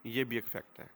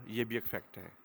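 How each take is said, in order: Both takes have the same delivery.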